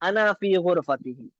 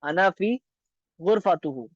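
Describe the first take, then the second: First: The last word ends with i vowels: -tihi. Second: The last word ends with u vowels: -tuhu. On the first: The speaker calls it right. "सही लफ्ज है ये" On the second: The speaker calls it wrong. "ये गलत है"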